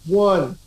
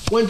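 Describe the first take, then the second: First: The counting is at a normal, slow pace. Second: The counting is as fast as possible.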